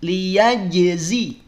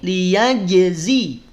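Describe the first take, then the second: Both takes have the same delivery.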